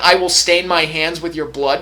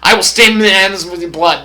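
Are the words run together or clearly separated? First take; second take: separated; run together. First: The words are said clearly separated. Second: The words are run together like one word.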